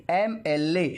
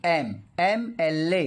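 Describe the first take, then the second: First: Said in the usual way. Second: "एम, एमएलए" said slowly, em split off first; slow spelled-out demo. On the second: Shown as a demonstration. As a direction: slowly sound out "एम" then "एमएलए" starting with E. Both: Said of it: "एम बोलते हैं हम लोग".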